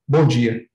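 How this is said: It is said in a flat, curt way.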